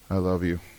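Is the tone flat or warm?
flat. It is said in a flat, unfeeling tone. The words sound empty and unconvincing. The speaker calls it wrong. "You can say to somebody the right words with the wrong tone"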